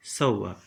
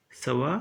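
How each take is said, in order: First: सव्वा with the v held double; doubled v. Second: सवा with a single light v; Hindi pronunciation. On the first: Teacher giving students the Marathi form, doubled v. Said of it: "खाली व की मात्रा दुगनी है". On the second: Teacher giving students the Hindi form, plain single v. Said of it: "खाली व की मात्रा". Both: Shown as a demonstration.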